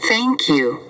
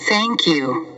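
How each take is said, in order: Both takes have the same delivery.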